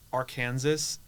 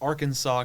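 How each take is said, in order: First: The name ends with a 'sass' sound. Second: The name ends with a 'saw' sound. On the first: The name is read by its English spelling. "we would say, like, Arkansas in, like, a English, like, phonetic pronunciation" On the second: The name keeps its French-derived pronunciation. "Arkansas comes from the, like, French, like, pronunciation"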